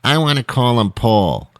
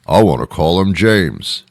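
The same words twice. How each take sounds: First: Parent insisting on a name, a bit higher; stubborn parent pushing for Paul; arguing parent. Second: Digging in for James; the other parent arguing back. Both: Retold or imitated. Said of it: "couldn't make a decision".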